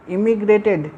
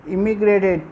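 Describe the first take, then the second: No difference in how they are said.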